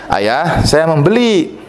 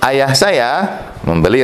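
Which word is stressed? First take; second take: membeli; ayah. First: The stress falls on the word membeli. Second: The stress falls on the word ayah. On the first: It was bought, not stolen. "Saya tidak mencurinya" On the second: It was the father who bought it. "Yang beli siapa? Ayah"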